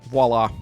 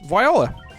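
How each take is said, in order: First: The word is said as vwah-lah. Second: The word is said like viola, vowels swapped. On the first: The speaker calls it right. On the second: The speaker calls it wrong. "Not Viola"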